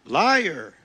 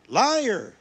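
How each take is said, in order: First: Loud furious cry of liar; shouted accusation. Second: Louder and higher second liar; the cry climbs, even more enraged; shouted accusation. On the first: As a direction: hurl the word at the street preacher. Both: Acted. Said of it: "he shouted".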